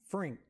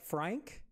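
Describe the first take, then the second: First: The vowel sounds like the one in pink. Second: The vowel sounds like the one in cat. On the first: "like I originally thought, Frink? ... So it's Frink" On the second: "Like Frank? Because I know that still sounds like Frank"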